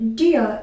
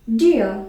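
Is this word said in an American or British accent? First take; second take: British; British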